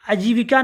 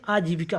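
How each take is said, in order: First: आजीविका begun with a short "a"; wrong short first vowel. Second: आजीविका with a long, weighted "aa" opening; stressed first vowel. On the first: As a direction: say आजीविका as "ajivika", opening unstressed. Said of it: "आजीविका नहीं". (आजीविका का आ छोटा करके) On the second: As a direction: lean on the आ in आजीविका. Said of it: "इस पर जोर देंगे". (आजीविका के आ पर ज़ोर) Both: Shown as a demonstration.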